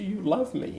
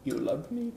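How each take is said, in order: First: High-pitched, tearful-style question, less timid; louder squeak. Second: Small, soft, high squeak; little squeak. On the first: Husband asking his wife once more on demand, high and louder. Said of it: "Say it louder". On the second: Husband timidly asking his wife, tiny squeak. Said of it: "comes out this little squeak". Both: Retold or imitated.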